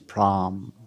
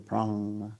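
First: The syllable ends with an m sound. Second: The syllable ends with an ng sound. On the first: "we take pra, and add anushwara, it becomes pram" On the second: "the anushwara will be pronounced like ng"

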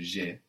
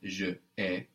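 First: The two words merge into one syllable. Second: The two words are said separately. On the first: The speaker calls it right. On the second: The speaker calls it wrong.

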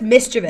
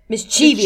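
First: The middle syllable has no long 'chee' sound. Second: The middle syllable is a long 'chee' sound. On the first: The speaker calls it right. "It's just mischievous" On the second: The speaker calls it wrong. "you don't have to say the cheat. Like"

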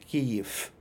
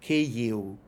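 First: It ends with a devoiced f sound, Russian-style. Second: It ends with a short u sound, Ukrainian-style.

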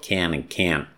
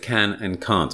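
First: It is said in an American accent. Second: It is said in a non-American accent.

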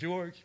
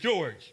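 First: The name is said in a timid, scared voice. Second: The name is said in a plain, confident voice. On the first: "I was scared. I said" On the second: "Well, I didn't say it like that"

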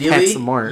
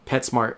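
First: The name is split into two separate parts. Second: The name is said quickly as one unit. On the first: "But if I'm breaking it down" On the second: "Say it fast"

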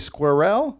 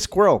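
First: The word is said as two syllables. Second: The word is said as one syllable. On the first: This is the non-American way of saying it. "but I think they say squirrel" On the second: This is the American way of saying it. "We say squirrel"

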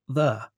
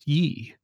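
First: The word begins with a 'th' sound. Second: The word begins with a 'y' sound. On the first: The speaker calls it right. "it's just pronounced the" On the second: The speaker calls it wrong. "isn't pronounced ye"

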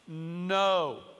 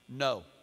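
First: The word is said slowly. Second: The word is said quickly.

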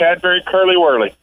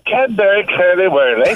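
First: It is said in his usual American accent. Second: It is said in an English accent.

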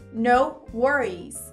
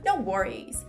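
First: The phrase is said at a slower pace. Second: The phrase is said at a faster pace.

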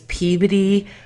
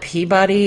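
First: The name is said the local way. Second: The name is said the outsider way. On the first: This is how the locals say it. The speaker calls it right. "It's Peabody" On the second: This is how people from elsewhere say it. The speaker calls it wrong. "We don't call it Peabody"

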